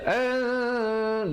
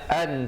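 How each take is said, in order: First: The n is held nasally for two beats. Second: The n is short and clear. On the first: It is hidden before the next letter here. "tapi baca an dua harakat" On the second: This is the word's basic form. "asalnya an tadkhulu"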